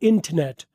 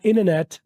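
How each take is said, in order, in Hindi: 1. यह ब्रिटिश लहजे में बोला गया है। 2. यह अमेरिकन लहजे में बोला गया है। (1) "ब्रिटिश वाले बोलते हैं" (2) "अमेरिकन बोलते वाले बोलते हैं"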